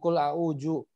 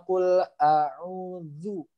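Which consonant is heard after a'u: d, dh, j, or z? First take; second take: j; dh. First: The middle consonant is a j sound. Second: The middle consonant is a soft dh sound. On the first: The speaker calls it wrong. "Apalagi nyasar ke huruf jim" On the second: The speaker calls it right. "ujung lidah bertemu ujung gigi seri atas"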